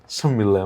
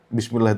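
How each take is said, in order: First: The word is shortened, with no initial b. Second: The word is said in full with initial b.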